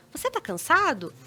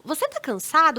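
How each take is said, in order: First: Calm, gentle sincere question; understanding, reassuring question; conciliatory tone. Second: Conciliatory, caring question; gentle questioning tone. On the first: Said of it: "nesse tom mais conciliatório". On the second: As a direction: ask it gently, curious not ironic. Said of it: "num tom assim, tipo". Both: Shown as a demonstration.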